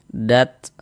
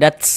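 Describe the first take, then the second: First: The final t ends in a short breathy puff. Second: The final t trails into a hissing sound. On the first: The speaker calls it right. "ada nafas yang mengalir ketika kita mengucapkannya" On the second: The speaker calls it wrong. "jangan dats ... jadinya menyebar nanti bukan mengalir"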